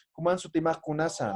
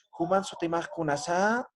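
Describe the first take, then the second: First: Juman su kunasa said flat and dry, falling, no question rise; flat dry tune. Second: Juman su kunasa with a rising question lilt at the end; rising question tune. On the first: Teacher showing the right flat Aymara question. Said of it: "Entonces, seco". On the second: Teacher showing the wrong rising question. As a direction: ask Juman su kunasa with a Spanish-style rise. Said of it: "así no preguntamos". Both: Shown as a demonstration.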